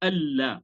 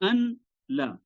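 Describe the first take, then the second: First: The n merges into a doubled l sound. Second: The n is sounded separately before la. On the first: "इदगाम करने के बाद इसको पढ़ा जाता है" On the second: "असल में है अन ला"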